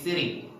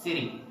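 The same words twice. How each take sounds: The two takes are said the same way.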